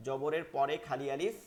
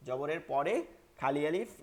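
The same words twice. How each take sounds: The two takes are said the same way.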